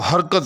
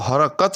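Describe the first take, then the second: First: The middle consonant has no vowel after it. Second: The middle consonant carries a short vowel. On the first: This is how people commonly say it. "तुम सभी जो है अ, वो हरकत, हरकत ... पढ़ते हैं" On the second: This is the word's original form. "असल लफ्ज़ जो है वो हरकत है"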